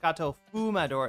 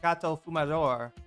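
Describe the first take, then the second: First: The stress in Fumador falls before the last syllable. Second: The stress in Fumador falls on the last syllable. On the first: The speaker calls it wrong. "It's not Gato Fumador" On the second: The speaker calls it right. "It's Gato Fumador"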